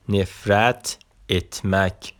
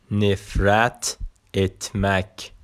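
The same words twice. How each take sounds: The two takes are said the same way.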